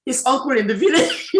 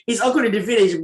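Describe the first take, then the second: First: Laughing through the words, voice breaking up. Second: Said in the usual way. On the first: Real, not acted. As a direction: let the laugh spill into the phrase. Retelling a funny teacher story.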